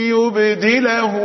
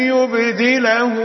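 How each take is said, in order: Both takes have the same delivery.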